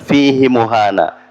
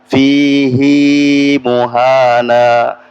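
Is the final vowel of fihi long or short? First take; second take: short; long. First: The last vowel of fihi is short. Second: The last vowel of fihi is held long. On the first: The speaker calls it wrong. "jadi bukan fihi muhana" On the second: The speaker calls it right. "jadi fihi-nya di situ panjang ya"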